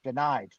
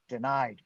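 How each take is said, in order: Both takes have the same delivery.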